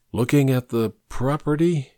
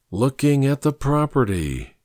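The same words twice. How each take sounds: First: Uncertain, questioning repeat, slightly higher; puzzled echo. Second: Musing, settling into the idea; warming to it. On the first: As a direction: echo it tentatively, not yet catching on. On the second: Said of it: "warming to the idea". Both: A narrator's reading.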